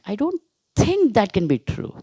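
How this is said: The stress falls on the word think. The doubt is only a personal opinion. "You are giving importance to thinking"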